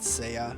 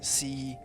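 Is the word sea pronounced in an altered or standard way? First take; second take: altered; standard. First: The word has a changed, unusual pronunciation. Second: The word has its ordinary modern pronunciation. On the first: "I kind of tweaked the pronunciation, calling it Sea" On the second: "coming from the English word sea"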